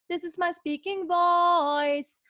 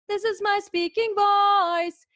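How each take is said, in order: First: It is spoken at a somewhat higher pitch. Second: It is spoken at the highest, most intense pitch.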